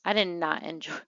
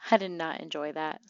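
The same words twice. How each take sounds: First: Said in the usual way. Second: Said through a laugh. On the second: Real, not acted. Player laughing at her sim freezing to death. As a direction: laugh it off while repeating.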